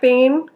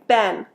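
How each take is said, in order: First: The vowel is long, like 'bean'. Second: The vowel is short, like 'ben'. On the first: "if you're using British English, you might it might sound more like been" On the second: "Americans say ben"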